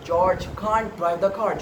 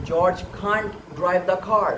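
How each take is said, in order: First: It is said with a British accent. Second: It is said with a British accent.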